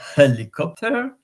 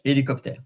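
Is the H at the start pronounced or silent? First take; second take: pronounced; silent. First: The word starts with an audible H sound. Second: The word starts without any H sound. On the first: "in English, you could say helicopter" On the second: "in French, we don't pronounce the H"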